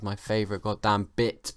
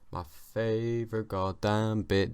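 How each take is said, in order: First: Said in the usual way. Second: Slow, stretched-out emphasis on each word; drawn-out repeat. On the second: Real, not acted. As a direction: linger on every word. Repeats phrase, drawing it out.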